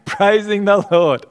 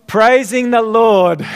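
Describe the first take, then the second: First: Said through a laugh. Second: Joyful answer. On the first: Pastor repeats his own answer, laughing. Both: Shown as a demonstration. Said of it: "You know what I say?".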